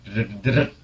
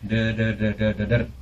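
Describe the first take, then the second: First: The syllables are said quickly. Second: The syllables are said slowly. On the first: "Semakin belakang semakin cepat" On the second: "pelan dulu"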